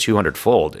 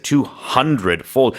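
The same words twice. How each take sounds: First: The phrase is said plainly, without extra emphasis. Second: The phrase is said with strong, drawn-out emphasis. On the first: "I didn't say" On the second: "because it's so ridiculous"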